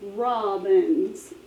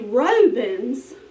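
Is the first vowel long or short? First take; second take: short; long. First: The first vowel is short, like 'rob'. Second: The first vowel is long, like 'roe'. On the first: The speaker calls it right. "it makes the vowel short. So now it's rob" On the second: The speaker calls it wrong. "that word would be Robins. Have you ever heard of Robins? No"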